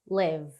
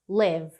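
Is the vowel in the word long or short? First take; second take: short; short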